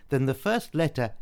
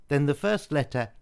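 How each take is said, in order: Both takes have the same delivery.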